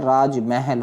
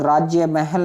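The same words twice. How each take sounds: First: राजमहल with no ya after raaj; correct form. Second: राज्य महल with a ya after raaj; wrong form. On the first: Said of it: "न होकर राजमहल होगा". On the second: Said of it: "न होकर". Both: Shown as a demonstration.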